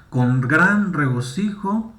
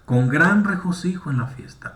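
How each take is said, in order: First: "gran regocijo" said slowly, leaning on gran; slow it down and weigh "gran"; stress on gran. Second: Said in the usual way. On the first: Shown as a demonstration. (lento, con énfasis en "gran") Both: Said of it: "Aquí termina el énfasis de la historia".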